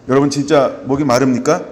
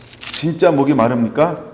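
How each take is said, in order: First: 여러분 hit hard, rising at the end; pressing question. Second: 진짜 hit hard, rising at the end; pressing question. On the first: Pastor challenging the congregation, stress on 여러분. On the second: Pastor repeating the challenge, stress on 진짜. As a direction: ask it again, leaning on 진짜. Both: Acted.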